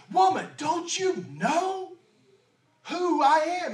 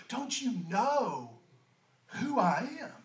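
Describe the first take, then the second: First: Jesus proclaiming, not boasting; bold declaration. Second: Slow, soft "Don't you know who I am?"; quietly sincere, slow, no boasting; gentle revealing. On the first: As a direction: call out "woman" with full authority. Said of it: "doesn't have an ounce of pride or arrogance". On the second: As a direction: reveal it tenderly, no pride. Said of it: "He's actually just revealing something to her". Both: Acted.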